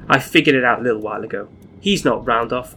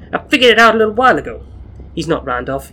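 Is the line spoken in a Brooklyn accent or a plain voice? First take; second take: plain; Brooklyn. First: It is spoken in a plain, unaccented voice. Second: It is spoken in a Brooklyn accent. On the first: The speaker calls it wrong. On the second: The speaker calls it right.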